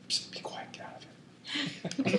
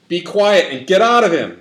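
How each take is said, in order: First: It is said softly and gently. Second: It is said firmly and forcefully.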